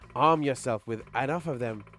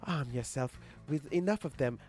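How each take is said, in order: First: It is said in the speaker's normal voice. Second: It is said in a put-on Morgalia voice.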